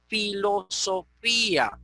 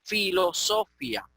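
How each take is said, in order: First: Filosofía drawn out slowly, stress on FÍ; broken diphthong. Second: Filosofía as filo-SO-fya, stress on SO; diphthong reading. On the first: Teacher showing how the tilde breaks it, slow filo-so-FÍ-a. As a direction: split the end of filosofía into FÍ-a. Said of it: "esa tilde rompe el diptongo". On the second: Teacher showing students the diphthong reading, filo-SO-fya. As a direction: glide the final ia of filosofía into one syllable. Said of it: "no podemos leer filosofía". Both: Shown as a demonstration.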